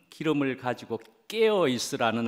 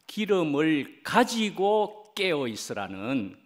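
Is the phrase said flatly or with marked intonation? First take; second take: flatly; marked intonation. First: The phrase is said flatly, running straight on. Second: The phrase is said with marked, expressive intonation. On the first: It is read as an ordinary title. The speaker calls it wrong. "이 제목의 마음은 ... 가 아니고" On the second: It stresses the urgent call to stay awake with oil. The speaker calls it right. "이거는 이제 좀 억양이 있어야 될 것 같습니다"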